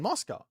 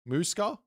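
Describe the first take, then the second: First: The first vowel sounds like the one in moss. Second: The first vowel sounds like the one in moose. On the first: "It's like moss? Well, I'm saying it right then" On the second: "Like a, like moose?"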